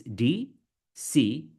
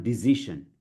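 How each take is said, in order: First: DECISION as dee... see... zhun; slow "decision" in three separated pieces; syllable-by-syllable. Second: DECISION as di-ZI-shun, buzzing z in the middle; mispronounced. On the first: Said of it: "break it into three first". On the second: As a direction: say "decision" wrongly with z and sh. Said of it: "it's not decision". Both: Shown as a demonstration.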